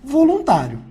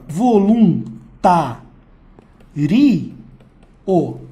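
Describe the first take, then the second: First: The final vowels glide together in one syllable. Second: The final vowels are split into separate syllables. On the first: The speaker calls it right. "Isso aqui é um ditongo" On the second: The speaker calls it wrong. "isso é um hiato"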